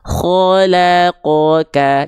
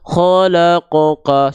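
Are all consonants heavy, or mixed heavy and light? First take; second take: mixed; all heavy. First: Heavy and light consonants alternate through the word. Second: Every consonant in the word sounds heavy. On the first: The speaker calls it right. "Kho-nya tebal ya, dan nanti lamnya tipis, qafnya tebal, kafnya tipis" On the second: The speaker calls it wrong. "semuanya jadi tebal"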